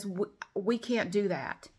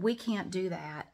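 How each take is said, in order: First: Mock slow refusal. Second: Imitating slow lady. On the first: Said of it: "everybody I talk to says". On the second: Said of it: "she said".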